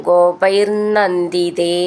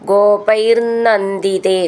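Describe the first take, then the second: No difference in how they are said.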